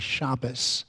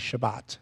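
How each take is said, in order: First: The word ends with an s sound. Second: The word ends with a t sound. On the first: "which pronounces uh, the tav with a dot in it as, a, as an S sound"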